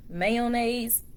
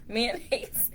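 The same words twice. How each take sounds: First: "mayonnaise" said in full, "may-uh-naze"; word-list reading of "mayonnaise" with a long first vowel; careful pronunciation. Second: "mayonnaise" shortened to "man-aze"; softly said "mayonnaise" as man-aze; own casual pronunciation. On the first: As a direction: open "mayonnaise" with a clear MAY. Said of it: "I don't be saying no mayonnaise". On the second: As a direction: squash "mayonnaise" into two syllables, man-aze. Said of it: "I say mayonnaise". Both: Shown as a demonstration.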